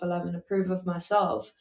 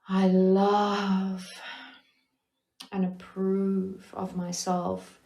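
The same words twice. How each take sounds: First: It is said flatly, without feeling. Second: It is said warmly, with real feeling.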